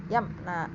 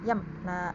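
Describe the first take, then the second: The two takes are said the same way.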